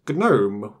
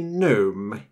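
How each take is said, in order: First: The starting G is pronounced hard. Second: The starting G is silent. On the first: It names a computer desktop. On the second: It names a small garden figure.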